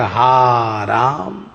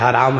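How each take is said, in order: First: The word is drawn out slowly into two parts. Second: The word is said quickly as one unit. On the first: It becomes a call on the name of Ram. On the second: It is heard as a curse meaning forbidden.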